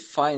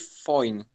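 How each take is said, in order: First: The vowel sounds like 'eye'. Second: The vowel sounds like 'oy'. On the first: "Esse fine" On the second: "ele tende na Irlanda a virar um, um espécie de foine"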